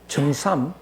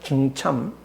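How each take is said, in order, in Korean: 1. 마지막 음절은 s 소리로 시작합니다. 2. 마지막 음절은 ch 소리로 시작합니다. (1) "많은 사람들이 정삼, 정삼 그러는데" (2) "엄밀하게는 정참입니다"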